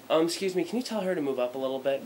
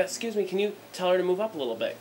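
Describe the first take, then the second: First: Polite request. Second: Higher, pushier second ask; the polite request again with irritation creeping in; irritated repeat. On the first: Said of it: "let me be polite". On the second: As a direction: ask again, more annoyed. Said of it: "'Cause I was getting a little pissed". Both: Retold or imitated.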